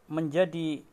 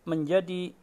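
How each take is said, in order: No difference in how they are said.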